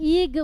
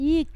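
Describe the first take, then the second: First: The syllable ends with a voiced g sound. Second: The syllable ends with a voiceless k sound. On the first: The speaker calls it wrong. "ইগ বলবেন না" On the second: The speaker calls it right. "ইক, ক, ক।"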